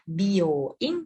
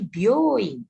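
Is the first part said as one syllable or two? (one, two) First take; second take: two; one. First: The bi and yo are two separate syllables. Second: The byo is blended into one syllable. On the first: The speaker calls it wrong. "bukan bioing" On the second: The speaker calls it right. "Jadi bio-nya dia satu bunyi"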